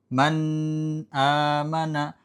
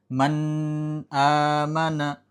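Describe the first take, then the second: Both takes have the same delivery.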